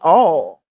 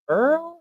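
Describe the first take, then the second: First: Oil is said like 'all', without an r. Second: Oil is said like 'earl', with an r. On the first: This is how everybody the speaker knows says it. "Because we say all" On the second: This is how people in a certain area say it. "you would be surprised the people that don't say Earl"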